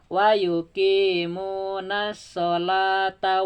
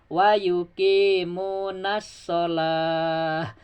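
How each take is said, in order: First: The phrase runs on, ending with a t sound. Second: The phrase stops, ending with an h sound. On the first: The reciter continues without stopping. "Tapi kalau disambung ya" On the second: The reciter pauses at this point. "Kalau di wakaf"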